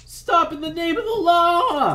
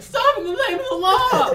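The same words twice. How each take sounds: First: High, loud whiny sheriff; shrill nervous lawman yelling. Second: High, loud yell cracking; whiny shout with a voice crack. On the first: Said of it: "In that whiny voice". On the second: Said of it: "there's a voice crack". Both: Acted.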